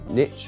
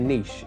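First: The word is said the American way. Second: The word is said in a non-American way.

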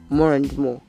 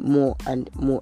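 First: The words run together with a linking R. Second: Each word is said separately, without linking. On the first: The speaker calls it right. "if I'm speaking, then I would say more and more" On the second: The speaker calls it wrong. "I wouldn't say more and more, except I want to really lay emphasis on any of the words"

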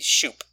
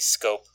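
First: It starts with sh and has an oo vowel. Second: It starts with sk and has an oh vowel. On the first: The speaker calls it right. "It should be shoop" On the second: The speaker calls it wrong. "should not be scope"

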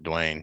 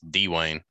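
First: The name is run together as one syllable. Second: The name is split into two syllables. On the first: The speaker calls it wrong. "It's not Dwayne, yeah. You can't run it together" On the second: The speaker calls it right. "You got to separate it"

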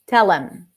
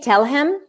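First: The H is dropped and him is reduced. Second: The H is pronounced and him is separate. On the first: "Then you can drop it and you turn it into a schwa" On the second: "They may separate it for the sake of being heard"

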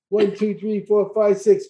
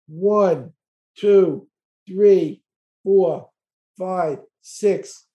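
First: It is counted as fast as possible. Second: It is counted at a moderate pace.

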